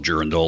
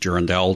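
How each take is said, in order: First: It is pronounced the American way. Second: It is pronounced a non-American way. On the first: "or however Americans pronounce it" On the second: "I pronounce it Durandal. Deal with it"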